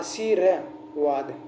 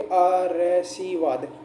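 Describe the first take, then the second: First: The r sound comes after the 'shee' syllable. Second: The r sound comes before the 'shee' syllable. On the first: The speaker calls it right. "ये हो रहा आशीर्वाद। शुद्ध हुआ" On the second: The speaker calls it wrong. "ये स से पहले बोले जाएगा"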